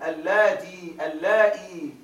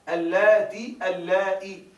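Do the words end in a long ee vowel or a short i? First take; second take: long ee; short i. First: Each word ends in a long ee vowel. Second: Each word ends in a short i vowel. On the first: "بإشباع الكسرة بياء" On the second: "بدون إشباع"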